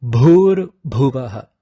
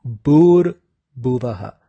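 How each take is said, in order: First: "Bhur Bhuvaha" with a forceful puff of breath on each Bh; slow "Bhur Bhuvaha", strongly aspirated Bh; forced aspirated bh. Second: "Bhur Bhuvaha" with plain b, no puff of breath; wrong-way demo of "Bhur Bhuvaha" with unaspirated b; unforced b. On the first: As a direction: push breath hard through the Bh in "Bhur Bhuvaha". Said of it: "you exert a forced". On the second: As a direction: drop the aspiration, saying "Bhur Bhuvaha" as "Bur Buvaha". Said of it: "Without the force, the pronunciation gets". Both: Shown as a demonstration.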